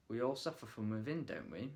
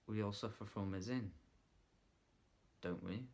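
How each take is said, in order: First: Said in the usual way. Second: Leaning in. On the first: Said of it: "so we're taking the line". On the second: Shown as a demonstration. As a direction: draw them in quietly. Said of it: "just a lean in".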